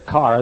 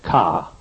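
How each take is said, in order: First: It is said with the r pronounced. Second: It is said Eastern Yankee style, without r.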